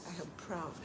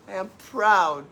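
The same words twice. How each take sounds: First: "I am proud" said much softer, almost to herself; quiet. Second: "I am proud" said louder, firm stress on "proud"; emphatic. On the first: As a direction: murmur "I am proud" softly, inward. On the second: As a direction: declare "I am proud", leaning hard on "proud". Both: Shown as a demonstration.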